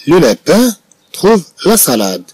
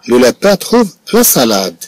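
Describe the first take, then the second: First: "Le lapin trouve la salade" read slowly again, pitched higher; slow, higher repeat. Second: Slow dictation. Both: Shown as a demonstration.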